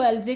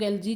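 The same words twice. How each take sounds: First: एलजे, the "aljay" way of saying algae. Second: एलजी, the "aljee" way of saying algae. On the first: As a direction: say एलजे, ending on "-jay". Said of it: "कुछ लोग इसको एलजे कहते हैं". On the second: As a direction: say एलजी, ending on "-jee". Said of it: "कुछ लोग एलजी कहते हैं". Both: Shown as a demonstration.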